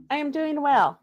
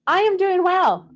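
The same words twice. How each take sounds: First: Said in the usual way. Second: Southern Belle. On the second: Pretend. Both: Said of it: "Southern Belle thing".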